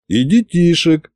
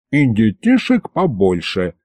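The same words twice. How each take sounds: First: Serious. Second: Giggling tease. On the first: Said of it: "серьёзно кивнул я". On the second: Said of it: "хихикнул Аристофан". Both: A narrator's reading.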